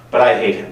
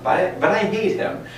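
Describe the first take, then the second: First: Said in the usual way. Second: High, whiny sulking king voice; whiny King Ahab. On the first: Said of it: "reading the verse aloud". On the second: Retold or imitated. Teacher mimics Ahab's petulant complaint, high and whiny. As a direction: pout it out like a sulky king. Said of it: "I remember hearing this".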